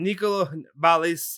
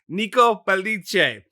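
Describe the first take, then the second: First: The name has an American-style pronunciation. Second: The name has an Italian-style pronunciation. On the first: The speaker calls it wrong. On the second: The speaker calls it right.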